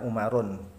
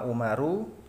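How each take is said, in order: First: The word ends with an added n sound. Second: The word ends on a plain vowel without n. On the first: The speaker calls it wrong. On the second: The speaker calls it right.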